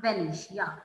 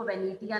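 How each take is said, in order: First: वेनेशिया said with a sh sound, ve-ne-shi-ya; correct pronunciation. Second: वेनेटिया said with a hard t, as the wrong way; wrong pronunciation. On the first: Teacher correcting students' reading, वेनेशिया with sh. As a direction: model वेनेशिया clearly with sh in the middle. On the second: Teacher showing students the wrong reading, वेनेटिया with a t. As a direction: demo वेनेटिया with a t sound, the way not to read it. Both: Shown as a demonstration. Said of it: "इसको वेनेटिया नहीं पढ़ना".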